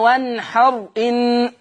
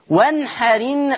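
First: The glottal stop is pronounced after a silent r. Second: The glottal stop is dropped; r takes its vowel. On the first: The speaker calls it wrong. "مش بقى وانحر ان، لا" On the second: The speaker calls it right. "شيل الهمزة، انقل الحركة بتاعتها لحرف الساكن اللي قبل منها"

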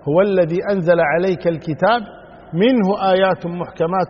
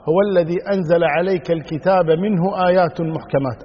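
First: There is a pause right after al-kitab. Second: It runs on without a pause after al-kitab. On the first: "أو تقف على الكتاب" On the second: "لا يوقف عند منه، وإنما تقرأ"

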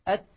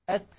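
Both takes have the same delivery.

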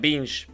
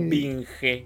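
First: The word is said with English sounds. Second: The word is said with Spanish letter sounds. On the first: This is how the name is properly pronounced. "creo que se pronuncia Binge" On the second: This is how the name looks when read as written. "yo digo Binge... me gusta decirlo como suena"

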